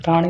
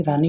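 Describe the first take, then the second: First: रानी mispronounced as "raaṇi"; retroflex ṇa. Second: रानी with a plain "ni"; dental na. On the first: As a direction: curl the tongue on the n of रानी. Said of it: "रानी नहीं". (रानी को गलत ढंग से "राणी" बोलें) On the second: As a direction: keep the tongue forward on रानी's n. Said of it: "रानी होता है". (रानी में सीधा "नी" बोलें) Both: Shown as a demonstration.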